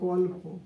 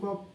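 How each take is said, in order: First: The middle consonant is an l sound. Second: The middle consonant is a doubled p sound. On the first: "গ লয় প" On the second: "গল্প থেকে বললাম গপ্প, গ পয় পয়"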